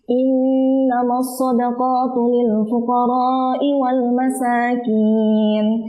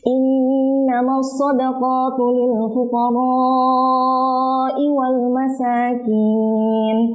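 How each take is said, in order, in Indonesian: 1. Vokal setelah 'r' dibaca sebentar. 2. Vokal setelah 'r' dipanjangkan. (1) "di huruf ra-nya beliau baca dengan uh, kadar mad dua harokat" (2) "pada huruf ra-nya dibaca lebih dari dua harokat"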